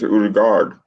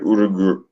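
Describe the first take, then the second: First: The name ends with a full 'gard' sound. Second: The name ends with a short 'gur' sound. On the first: The speaker calls it right. "it's Urugard" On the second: The speaker calls it wrong. "that's not how he says his name"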